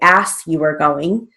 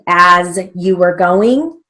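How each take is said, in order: First: The word as ends with a hissing s sound. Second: The word as ends with a buzzing z sound. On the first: The speaker calls it wrong. "We don't say" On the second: The speaker calls it right. "As is A Z"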